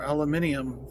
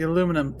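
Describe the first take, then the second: First: The word is said with five syllables. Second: The word is said with four syllables.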